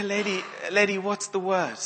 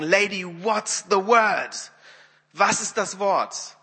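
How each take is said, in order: First: Higher, awkward mild prodding; uneasy urging. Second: Slow, higher, emphatic demand; very stern. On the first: Wimber to the weeping woman, uneasy urging. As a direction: prod a crying stranger, embarrassed. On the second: Wimber fed up with the weeping woman, very stern. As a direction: demand it sternly, stretching every word. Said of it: "sagte er so ganz streng". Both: Retold or imitated.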